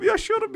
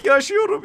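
First: Very high yaşıyorum, softer and falling away; yaşıyorum sighed out high and fading; breathless relief. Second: Much higher, rising yaşıyorum; relieved disbelief. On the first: (alçalan rahatlamış yaşıyorum) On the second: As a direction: squeal yaşıyorum in surprised relief. (yüksek sesle şaşkın sevinç) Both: Real, not acted. Survives a close fight.

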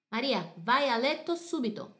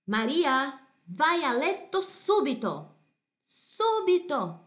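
First: Said in the usual way. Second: Loud, high, firm mother's command, SUBITO drawn out slowly; stern order to bed. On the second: Acted. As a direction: order Maria to bed right now. Mother sends child to bed.

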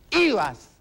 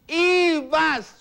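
First: Said in the usual way. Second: Ibas said higher and drawn out, mocking; stress on Ibas. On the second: Real, not acted. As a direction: stretch Ibas teasingly upward. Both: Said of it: "Tú mismo lo has dicho".

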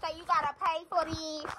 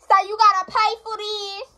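First: Soft, held-back call; softer first call. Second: Loud, high-pitched call; raised, carrying voice. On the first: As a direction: call it out quietly. First, softer try at calling out. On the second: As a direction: holler it to someone in another room. Calling out to someone elsewhere. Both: Real, not acted.

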